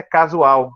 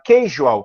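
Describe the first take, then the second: First: Said in the usual way. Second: Casual said the English way, like kayzhual; English casual with a zh sound; English pronunciation. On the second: Shown as a demonstration. Teacher contrasting English casual with Portuguese. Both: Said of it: "que em português é casual".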